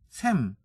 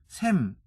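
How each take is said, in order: No difference in how they are said.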